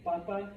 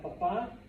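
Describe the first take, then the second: First: "Papa" as PA-pa; Spanish "Papa" with a weak ending; stress on first syllable. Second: "Papa" as pa-PA; Spanish "Papa", second syllable stressed; stress on last syllable. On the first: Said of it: "Papa is potato". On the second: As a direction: lean on the final A of "Papa". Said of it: "Pronounce that last A". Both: Shown as a demonstration.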